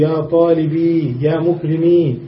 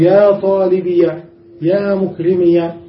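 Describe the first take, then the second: First: The final y sounds have no vowel after them. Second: The final y sounds are followed by an a. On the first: "إما أن تسكن الياء فتقول" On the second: "وإما أن تفتحها فتقول ... بالفتح"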